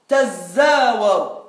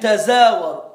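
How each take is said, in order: First: The z sound is doubled and held longer. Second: The z sound is short and single. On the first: One ta sound was merged into the z. "avec le zaï mouchaddad" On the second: One of the two ta sounds was dropped. "Soit en supprimant le ta"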